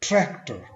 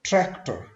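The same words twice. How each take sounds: No difference in how they are said.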